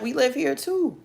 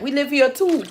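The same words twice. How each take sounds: First: Put-on higher Jamaican accent; light Jamaican accent. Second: Put-on higher Jamaican accent, a bit louder. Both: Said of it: "how I'm doing on my accent".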